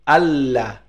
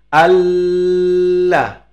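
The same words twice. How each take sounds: First: The doubled l is short, not prolonged. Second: The doubled l is held long, prolonged. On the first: The speaker calls it right. "itu cukup" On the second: The speaker calls it wrong. "tak boleh gitu ya, salah nanti"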